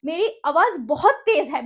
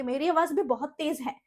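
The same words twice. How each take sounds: First: Louder and slower to show her voice's power. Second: Said in the usual way. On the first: Shown as a demonstration. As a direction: lean on it loud and slow. (आवाज़ तेज़ और धीमी करके दिखाना)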